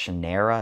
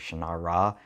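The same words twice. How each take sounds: First: The middle syllable rhymes with 'air'. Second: The middle syllable rhymes with 'car'. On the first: "as in air, as in what you breathe" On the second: "as in R, like what a pirate says"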